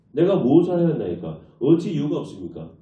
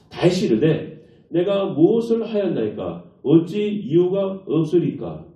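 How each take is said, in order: First: Said in the usual way. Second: Slow, drawn-out scripture line; slow solemn reading. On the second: Shown as a demonstration. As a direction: read it slowly, weighing each word. (천천히 장엄하게 읽기) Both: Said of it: "이렇게 말해요".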